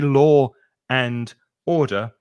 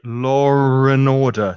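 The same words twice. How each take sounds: First: No r sound is heard after 'law'. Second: An r sound links 'law' to 'and'. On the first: The speaker calls it wrong. "we don't say law and order" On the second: The speaker calls it right. "we say law and order. So there's a r, a r sound after law"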